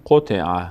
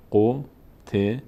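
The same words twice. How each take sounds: First: قطع read in one connected run; قطع blended smoothly into a single word; joined up. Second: قطع sounded out in three slow, separate syllables with pauses; teacher spelling out قطع one syllable at a time. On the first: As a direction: run the syllables of قطع together without pauses. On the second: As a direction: break قطع into single spaced-out syllables. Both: Shown as a demonstration. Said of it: "اگه سر هم بخونیم".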